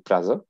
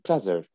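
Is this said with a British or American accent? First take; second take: British; American. First: It is said with a British accent. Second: It is said with an American accent.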